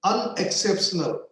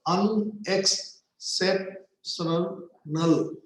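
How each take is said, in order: First: Said in the usual way. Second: "unexceptional" slowly broken as un-ex-cep-tio-nal; split in five syllables. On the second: Shown as a demonstration. Teacher counting syllables in a long word, broken apart. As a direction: say "unexceptional" in five separate beats, ending on "null". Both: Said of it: "five syllables".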